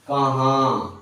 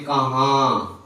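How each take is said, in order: Both takes have the same delivery.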